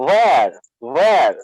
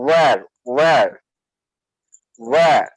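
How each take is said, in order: First: Where with a sounded final r, "wher"; American where. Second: Where with silent final r, "wair"; British where. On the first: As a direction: roll out the r at the end of where, American style. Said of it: "আর আমেরিকানরা কি বলবে?". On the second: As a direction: drop the r at the end of where. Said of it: "শেষের আরটাও কিন্তু silent হবে". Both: Shown as a demonstration.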